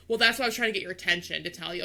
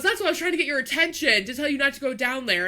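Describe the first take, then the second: First: Fast, snippy mock of the worker; mocking sassy tone. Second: Worker explaining. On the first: Driver mimics the worker's sassy reply, fast mockery. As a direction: rattle it off like a know-it-all. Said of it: "you don't have to be sassy". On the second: Retold or imitated. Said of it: "And he goes".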